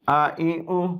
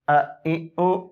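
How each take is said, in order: First: The vowels are held for a medium length. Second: The vowels are clipped short with a jerk. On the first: The speaker calls it right. "बल्कि इसको दरमियान में से पढ़ेंगे" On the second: The speaker calls it wrong. "इस तरह झटके से नहीं पढ़ेंगे, ये गलत है"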